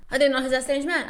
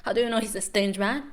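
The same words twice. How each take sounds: First: Incredulous. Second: Said in the usual way. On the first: Real, not acted.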